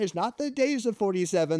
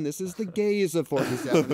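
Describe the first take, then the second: First: Days of forty-seven, with days stressed, high and incredulous; higher-pitched punchline setup leaning on days. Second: Gays of forty-seven, with gays punched, high and louder; higher, louder pun punchline hitting gays; stress on gays. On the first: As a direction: set up the pun by leaning on days. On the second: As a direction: land the pun hard on gays. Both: Retold or imitated. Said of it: "I'm like".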